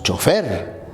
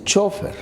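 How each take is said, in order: First: Chofer stressed on the last syllable, cho-FER; Peruvian stress. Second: Chofer stressed on the first syllable, CHÓ-fer; Argentine stress. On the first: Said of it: "Nosotros decimos". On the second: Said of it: "los argentinos dicen". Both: Shown as a demonstration.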